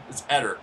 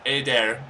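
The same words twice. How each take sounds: First: Eder said as "ED-er"; short E and weak ending in Eder; own pronunciation. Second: Eder said as "AY-dair"; long A, full "dair" ending in Eder; announcer's pronunciation. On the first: Shown as a demonstration. Player correcting the announcer, Eder as "ED-er". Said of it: "there's no A in his name". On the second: Retold or imitated. Player echoing the announcer, Eder as "AY-dair". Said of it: "but the announcer's like".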